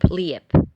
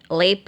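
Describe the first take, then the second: First: The vowel is a gliding ije. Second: The vowel is a plain e.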